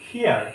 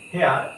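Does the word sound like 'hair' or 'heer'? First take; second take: heer; hair. First: The vowel sounds like the one in 'ear'. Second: The vowel sounds like the one in 'air'. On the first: The speaker calls it right. "এটা হবে হিয়ার" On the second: The speaker calls it wrong. "এগুলো সবগুলোই হচ্ছে কি ভুল উচ্চারণ"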